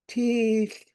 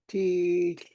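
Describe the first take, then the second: First: The word carries the marked tone on its vowel. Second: The word is said without the marked tone. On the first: It means shoe. "There's a tone mark on the first E, so that makes it" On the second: It means a scar. "if you leave the tone mark off the letter, you say"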